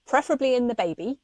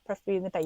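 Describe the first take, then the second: First: Quick, lifted aside with a rising end; pointed aside. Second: Softer, falling repeat; quiet restatement. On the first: Adding where the blood should be, quick pointed aside. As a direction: toss in the correction briskly and brightly. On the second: Repeating where the blood should be, quiet pointed restatement. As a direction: drop the volume and repeat it as an understated point. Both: Real, not acted. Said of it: "Let's just say that".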